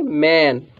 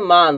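First: मैन with a front "ae" vowel, falling; correct reading of मैन. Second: मान with a long open "aa"; students' misreading of मान. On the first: Shown as a demonstration. Teacher corrects the students, मैन with "ae". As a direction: say मैन as English "man". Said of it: "इसको हम क्या पढ़ेंगे?". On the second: Retold or imitated. Teacher quotes many students' reading, मान with "aa". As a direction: say मान as "maan". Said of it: "बहुत से student इसको क्या पढ़ते हैं".

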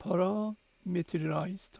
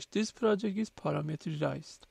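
First: Parameterized whispered very slowly, syllable by syllable, rising at the end; unsure whispered check of parameterized; trying the pronunciation. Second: This project is parameterized read out slowly, voiced, parameterized tried at normal loudness; slow voiced first try at parameterized; reading out English. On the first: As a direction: sound out parameterized under the breath, very slowly. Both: Shown as a demonstration.

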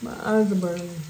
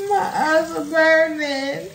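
First: Loud pained complaint; stinging eyes. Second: High, loud, slow pained cry; stinging eyes. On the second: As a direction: wail out through stinging eyes. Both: Real, not acted.

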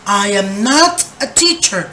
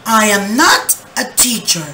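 First: Said in the usual way. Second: "not" stressed in "I am not a teacher". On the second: Shown as a demonstration. Teacher showing where not goes, stress on not. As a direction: lean on "not" as the new word. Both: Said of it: "¿cómo sería?".

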